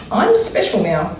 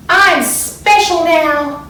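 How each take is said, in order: First: Said in the usual way. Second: High and slow, drawn out with delight; excited cry. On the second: A narrator's reading. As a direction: proudly announce it to everyone, slowly. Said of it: "she cried out loud".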